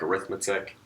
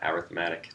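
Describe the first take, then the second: First: It is pronounced the way the noun is. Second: It is pronounced the way the adjective is. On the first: It names the branch of mathematics. "Looks like arithmetic" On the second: It describes a kind of sequence. "changing the pronunciation changes it to an adjective"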